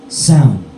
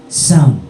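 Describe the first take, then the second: No difference in how they are said.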